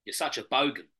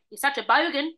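First: BOGAN dropping in pitch at the end; attempted Australian, no lift on BOGAN; falling end. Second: BOGAN lifted up like a question; rising end. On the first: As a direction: let "bogan" fall like a statement. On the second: Shown as a demonstration. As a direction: raise the pitch on "bogan" at the end. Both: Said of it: "No, up at the end".

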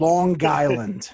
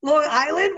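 First: "Long Island" slow, G carried into Island, like "Lon-Guyland"; Long Island run together. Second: "Long Island" high and loud, two clear words, rising; Long Island puzzled. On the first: Shown as a demonstration. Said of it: "the G carries over". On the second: Retold or imitated. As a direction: question the word "Long Island" in surprise. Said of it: "What do you mean?".

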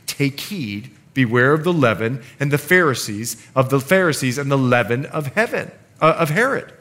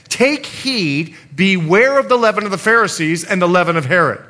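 First: Said in the usual way. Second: Loud proclaiming scripture reading; solemn warning. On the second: Acted. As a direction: proclaim it as Jesus' stern warning. Jesus' warning quoted from scripture.

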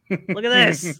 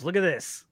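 First: Louder, higher show-off; excited. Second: Said in the usual way. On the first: Real, not acted. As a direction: call them to look, excited.

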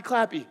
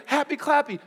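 First: Said in the usual way. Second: Mocking tone. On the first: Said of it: "life is not always happy". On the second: Real, not acted. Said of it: "not happy, clappy words".

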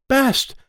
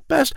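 First: "Best" said high and hard with a clear B; stress on Best. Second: Said in the usual way. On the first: Acted. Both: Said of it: "Not pest".

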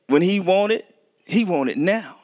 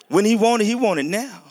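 First: Put-on a child demanding it right now, pitched up; voicing a toddler who won't wait; imitating demanding son. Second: Higher, louder whiny demand; mock impatient toddler. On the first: Preacher mimicking his impatient son, pitched up and insistent. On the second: Preacher voicing his son Zion's impatience, higher and louder. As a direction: play the little boy who wants it now. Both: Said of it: "My son Zion".

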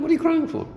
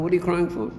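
First: Squeaky high mock disbelief, much higher; mock incredulous. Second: Said in the usual way. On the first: Teacher teasing people who cry over Tehillim, high mock incredulity.

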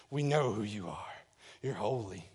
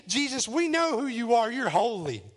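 First: Much lower, softer voice; hushed awe. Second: Mildly raised voice, falling at the end; crying out. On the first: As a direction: drop to a low, reverent hush. Same cry repeated in hushed awe. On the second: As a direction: cry it out emphatically. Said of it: "cried out". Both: Acted.

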